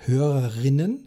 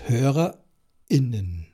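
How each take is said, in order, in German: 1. Das r geht ohne Pause glatt in -innen über. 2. Ein Glottisschlag trennt das Wort vor -innen. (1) "Da brauche ich den Glottisschlag nicht, weil für das I habe ich das R" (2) "brauche ich die Glottis"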